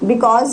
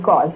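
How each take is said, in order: First: It is said in full with two syllables. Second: The first syllable drops, leaving one syllable. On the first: "बिकॉज is कॉज" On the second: "बिकॉज is कॉज"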